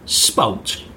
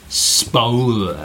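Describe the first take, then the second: First: The word is said briefly. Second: The word is drawn out long.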